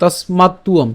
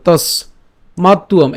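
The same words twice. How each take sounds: First: তস্মাত্তুয়ম joined smoothly in one go; said as one word. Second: তস set apart, then মাত্তুয়ম; split syllables. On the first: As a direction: blend তস্মাত্তুয়ম into a single word. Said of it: "এটা একসাথে উচ্চারণ করবো". (তস্মাত্তুয়ম একসাথে উচ্চারণ) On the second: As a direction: pause after তস. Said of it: "এটা আমরা আলাদা করবো". (তস আলাদা করে বলা) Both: Shown as a demonstration.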